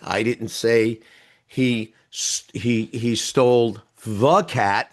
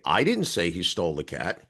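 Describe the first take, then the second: First: The stress falls on the word the. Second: The stress falls on the word I. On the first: It was not that particular cat. "There were a lot of cats" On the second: Someone else said it. "you did"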